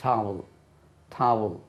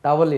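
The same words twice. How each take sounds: First: டாவுல் as "TAA-vul", long first vowel; டாவுல் said like "tow-ul", with an "ow" glide; correct pronunciation. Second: டவல் with a short first a; mispronounced டவல், short vowels in both syllables; wrong pronunciation. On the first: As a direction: model டாவுல் in two falling syllables. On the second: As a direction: say டவல் quickly as "TA-val", no long vowel. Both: Shown as a demonstration. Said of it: "டவல் இல்லை அது".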